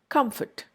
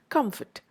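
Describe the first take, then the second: The two takes are said the same way.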